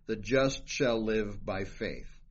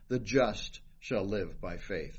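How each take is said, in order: First: The stress is on "faith". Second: The stress is on "just".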